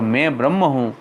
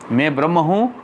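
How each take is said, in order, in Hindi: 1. ब्रह्म शब्द पर ज़ोर है। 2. मैं शब्द पर ज़ोर है। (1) "अपन ब्रह्मास्मि पे भार दे रहे हैं दियो तो वाको दूसरो मतलब हो जाएगा" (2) "अपन अहम पे भार दे रहे हैं तो एक मतलब होएगो"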